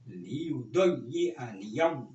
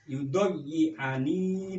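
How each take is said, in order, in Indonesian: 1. Kata itu berakhir dengan bunyi 'niya' yang ditambahkan. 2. Kata itu berakhir dengan bunyi 'ni' yang pendek. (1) "tapi lebih lebih soleh itu untuk menguatkan lannya ini harus dibaca" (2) "Boleh sampean baca walan yudoyi ani boleh"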